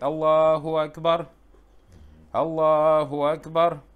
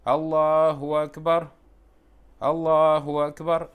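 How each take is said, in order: The two takes are said the same way.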